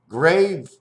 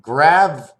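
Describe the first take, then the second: First: GRAVE with a long A as in "wave"; grave, English long-A vowel. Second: GRAV with a short flat A as in "have"; Grav, French-style vowel, punched out; French-style grave. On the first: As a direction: say grave to rhyme with "save". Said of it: "an accent of grave". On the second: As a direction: say Grav to rhyme with "have", loud. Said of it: "An accent of grav". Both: Shown as a demonstration.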